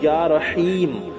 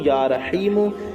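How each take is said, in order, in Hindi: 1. नाम के अंत में कोई अंतिम स्वर नहीं है। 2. नाम का अंत छोटे 'u' स्वर से होता है। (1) "जहाँ ठहरेंगे वहाँ या रहीम पढ़ेंगे" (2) "इस तरह से पढ़ेंगे"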